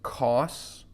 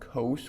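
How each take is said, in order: First: The vowel is a short o sound. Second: The vowel is a long o sound. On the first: The speaker calls it wrong. "We wouldn't call this cos" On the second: The speaker calls it right. "We call it cos with a long O"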